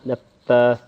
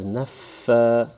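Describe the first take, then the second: First: The f sound is quick and clipped. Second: The f sound is held with audible breath. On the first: The speaker calls it wrong. "saying fa quickly" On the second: The speaker calls it right. "some breath occurs when saying the fa"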